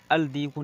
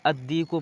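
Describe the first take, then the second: First: अल दीकु with the L spoken before the d, al-diku; deliberately wrong al-diku; wrong lam reading. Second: अद्दीकु with a doubled d and no lam, ad-diku; correct sun-letter reading. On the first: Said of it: "अल दीकु नहीं पढ़ते हैं". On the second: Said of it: "अद्दीकु पढ़ते हैं". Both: Shown as a demonstration.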